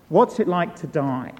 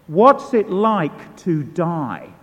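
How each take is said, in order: First: Said in the usual way. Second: Slow and weighty, each word leaned on; pressed slowly and louder, the first asking; slow, heavy question. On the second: Retold or imitated. Preacher repeats his blurted question.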